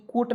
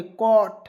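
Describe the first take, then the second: First: कोट with a plain o vowel; wrong vowel. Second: कॉट with an open aw vowel; correct vowel. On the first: Teacher shows students the wrong reading, plain o vowel. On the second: Teacher gives students the right reading, open aw vowel. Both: Shown as a demonstration. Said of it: "कोट नहीं पढ़ेंगे".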